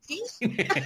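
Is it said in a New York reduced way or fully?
New York. It is run together New York style.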